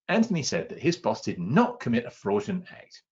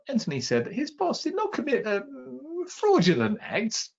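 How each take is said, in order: First: The stress falls on the words did not. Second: The stress falls on the word fraudulent. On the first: The act never happened at all. "He simply didn't do it" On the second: The act was close to fraud but not quite. "but he was probably on the edge"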